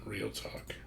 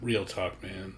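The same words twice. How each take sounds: First: "Real talk" whispered, softer and unvoiced. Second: Said in the usual way. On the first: Shown as a demonstration. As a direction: breathe it like a secret. Repeats phrase as a whisper.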